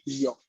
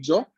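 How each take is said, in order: First: The syllable is said with a softer, looser sound. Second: The syllable is said with a harder, tighter sound. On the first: The speaker calls it wrong. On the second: The speaker calls it right.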